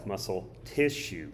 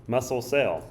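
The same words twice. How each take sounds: First: "tissue" set apart and leaned on, falling; stress on tissue. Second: "cell" punched a little louder, falling; stress on cell. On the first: Teacher showing the one changed word, stress on "tissue". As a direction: lean on the word "tissue" for contrast. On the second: Teacher contrasting cell with tissue, stress on "cell". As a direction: set off the word "cell" for contrast. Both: Shown as a demonstration. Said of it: "one word and it changes everything".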